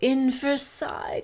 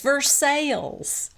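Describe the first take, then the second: First: Versailles is said the standard, non-Kentucky way. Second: Versailles is said the local Kentucky way. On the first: The reader assumes the usual pronunciation. "Lisa is reading it and she says" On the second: The local pronunciation is used as a correction. "Brittany corrects Lisa and says"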